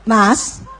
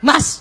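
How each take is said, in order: First: The call sounds sweet and gentle. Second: The call sounds irritated and sharp.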